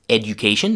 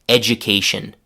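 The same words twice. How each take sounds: First: The d and y sounds stay separate. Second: The d and y merge into a j sound. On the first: The speaker calls it wrong. "Nobody says education" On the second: The speaker calls it right. "They say education"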